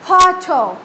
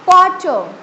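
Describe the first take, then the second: First: It is said with a strongly aspirated, bursting p. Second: It is said in an Indian accent, unaspirated p.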